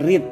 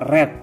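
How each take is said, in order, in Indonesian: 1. Vokalnya adalah bunyi ee yang panjang. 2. Vokalnya adalah bunyi e yang pendek. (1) "bukan read" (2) "Red ya Bu"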